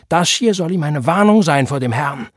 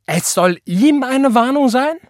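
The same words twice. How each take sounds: First: Loud, raised stern warning; venomous warning. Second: Very high, loud incredulous yell; outraged shout. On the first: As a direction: lay down the warning angrily. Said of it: "giftete er seine Frau an". (laut und giftig mahnend) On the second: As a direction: shout it back in disbelief. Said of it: "schrie Tante Florence". (empört aufschreien) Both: A narrator's reading.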